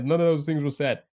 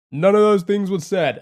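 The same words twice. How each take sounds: First: Said in the usual way. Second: Louder and higher insistent denial; loud protest. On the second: Real, not acted. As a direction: push back at chat, louder. Protesting chat's fake guesses.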